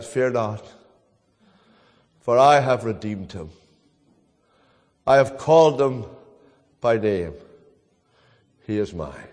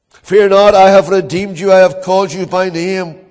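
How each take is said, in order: First: Low and soft, falling to near silence; a gentle heavenly reassurance over a deathbed; hushed voice from heaven. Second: A bold pulpit proclamation of scripture; ringing proclamation. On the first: Retold or imitated. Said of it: "And a voice from heaven said". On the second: Acted. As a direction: call out the promise to the whole church. Preacher proclaims God's promise aloud.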